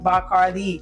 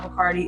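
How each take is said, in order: First: The name is said with a Puerto Rican pronunciation. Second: The name is said with an American pronunciation. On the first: The speaker calls it right. "or as they like to say" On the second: The speaker calls it wrong. "we're apparently pronouncing it wrong here in America"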